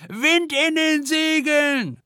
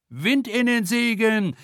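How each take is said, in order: First: Very high, slow screeching shout; shrieking. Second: Shrieking. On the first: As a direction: shriek it into the storm. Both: A narrator's reading. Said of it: "kreischt Silja".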